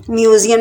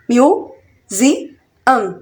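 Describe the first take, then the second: First: Said in the usual way. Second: museum in three very slow, separate beats; split into syllables. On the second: Shown as a demonstration. Teacher counting out three syllables for learners, syllable by syllable. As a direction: break museum up as mu, ज़ि, अम. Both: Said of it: "museum में भी three syllable".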